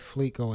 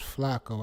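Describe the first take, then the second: First: The first vowel sounds like the e in 'fleck'. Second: The first vowel sounds like the a in 'flack'. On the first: The speaker calls it wrong. "I've been mispronouncing his name. I've been saying Fleco" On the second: The speaker calls it right. "It's Flacco"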